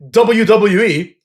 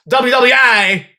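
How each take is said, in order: First: The final letter is said in the plain way. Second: The final letter is said in an altered way. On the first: The speaker calls it right. "Instead of saying W W E" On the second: The speaker calls it wrong. "he says W W I"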